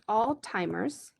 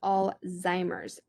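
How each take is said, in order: First: The middle consonant sounds like a t. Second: The middle consonant sounds like a z. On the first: The speaker calls it wrong. "So not all-timers" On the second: The speaker calls it right. "but it's Alzheimer's"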